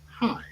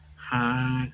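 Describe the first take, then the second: First: It is said in a plain, normal way. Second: It is said in an exaggerated eighties style.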